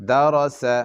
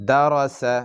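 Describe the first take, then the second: Both takes have the same delivery.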